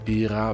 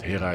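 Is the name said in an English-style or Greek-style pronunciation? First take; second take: Greek-style; English-style. First: The name is said in a Greek-style pronunciation. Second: The name is said in an English-style pronunciation. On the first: "to be precise" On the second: "let's keep it simple with the pronunciations and call him Hera"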